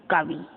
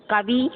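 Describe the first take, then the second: First: Said in the usual way. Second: "कवि" as kavee, long final vowel; lifted long ee ending on "कवि"; wrong long ī. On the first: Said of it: "छोटी की लगती ना". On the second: Shown as a demonstration. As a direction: stretch the last vowel of "कवि". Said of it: "कवि में बड़ी की मात्रा नहीं लगती".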